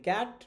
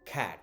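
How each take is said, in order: First: The first k sound is unaspirated. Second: The first k sound is strongly aspirated. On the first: The speaker calls it wrong. "আমরা বলি ক্যাট" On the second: The speaker calls it right. "The pronunciation would be খ্যাট ... শুরুতে কি আছে খা সাউন্ডটা আছে"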